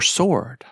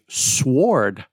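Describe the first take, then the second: First: No w sound is pronounced after the s. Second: A w sound is pronounced after the s. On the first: The speaker calls it right. "silent letters" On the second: The speaker calls it wrong. "I've had students say sword"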